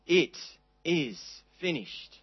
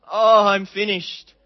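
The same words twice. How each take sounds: First: Slow, soft, settled "It is finished"; quiet fulfillment. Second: A sighing, hopeless "Oh, I'm finished", slow and louder; mock despair. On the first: Preacher giving the true meaning, soft and slow. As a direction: let it land as quiet victory. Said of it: "words of wonderful fulfillment and victory". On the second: Preacher showing a despairing reading of Jesus' words, slow and sighing. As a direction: give up, drawn out and defeated. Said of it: "not words of despair and hopelessness". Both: Shown as a demonstration.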